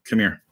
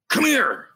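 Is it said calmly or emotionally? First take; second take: calmly; emotionally. First: It is said plainly, without emotion. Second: It is said with strong, serious emotion.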